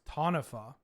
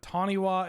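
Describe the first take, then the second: First: The last syllable starts with an F sound. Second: The last syllable starts with a W sound. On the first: The speaker calls it right. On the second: The speaker calls it wrong.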